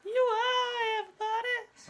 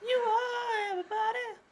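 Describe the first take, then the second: First: High, slow crying shout; old radio show. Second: High wailing dramatic cry; old radio show. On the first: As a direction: cry it out, slow and loud, radio melodrama. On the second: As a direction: wail it like a radio melodrama. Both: Retold or imitated. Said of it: "That's the line".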